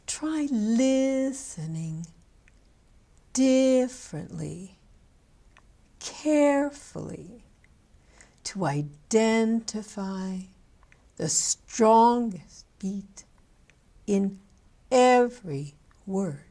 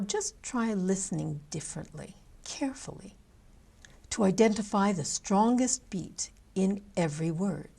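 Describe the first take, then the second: First: It is said slowly with exaggerated stressed syllables. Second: It is said at normal speed, plain stress.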